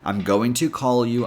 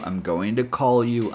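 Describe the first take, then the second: First: The word to has a full, clear o vowel. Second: The t in to sounds almost like d.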